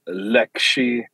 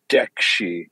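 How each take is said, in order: First: The word begins with an L sound. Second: The word begins with a D sound. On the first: "whether you pronounce an L" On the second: "or a D"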